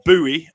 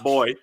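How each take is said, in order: First: It is said the American way, like boo-ee. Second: It is said the British way, like boy.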